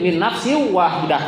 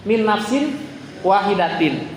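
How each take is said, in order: First: The last word ends with a soft h sound. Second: The last word ends with a full -tin ending.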